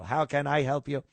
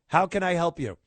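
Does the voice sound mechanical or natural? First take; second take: mechanical; natural. First: It is said in a stiff, robotic voice. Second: It is said in a natural, human voice. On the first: "I'm being all mechanical" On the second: "It sounds very natural"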